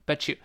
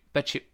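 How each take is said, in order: Both takes have the same delivery.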